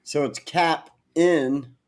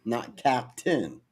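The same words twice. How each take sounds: First: "Cap in" said as two separate words; Cap in, split apart. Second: "Captain" said as one word, quietly; "Captain" blended into a single word; Captain, run together. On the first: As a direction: pronounce "Cap in" slowly, with a clear break. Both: Shown as a demonstration.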